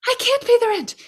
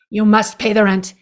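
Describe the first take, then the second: First: Very high pleading damsel voice; damsel in distress. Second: Lightly voiced melodrama villain, a bit louder; hint of a sneering landlord demanding rent; sneering panto villain. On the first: Pretend. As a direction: squeal it like a helpless victim. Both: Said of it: "this is the world's shortest play".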